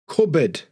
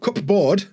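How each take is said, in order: First: It is said with a silent p and a reduced ending. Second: It is said with a clear p and full board. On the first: The speaker calls it right. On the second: The speaker calls it wrong.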